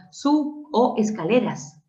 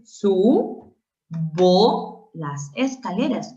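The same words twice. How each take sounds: First: "sub o" broken apart after the b; "sub o escaleras" with a gap before the o; wrong split demo. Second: "subo" slowly as su, bo, rising; "subo las escaleras" with the b joined to the o; correct syllable split. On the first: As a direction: detach "o" from "sub". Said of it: "Tú jamás dirías". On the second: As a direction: stretch "subo" in two open syllables. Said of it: "Tú dices". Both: Shown as a demonstration.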